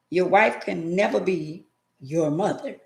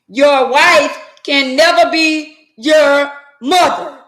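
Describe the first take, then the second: First: It is said at normal loudness. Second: It is said loudly.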